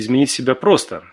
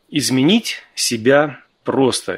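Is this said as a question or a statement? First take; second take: question; statement. First: The voice rises at the end like a question. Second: The voice falls at the end like a statement. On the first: Is changing yourself really simple? "а кто-то спрашивает" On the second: Changing yourself is simple. "кто-то говорит, что просто"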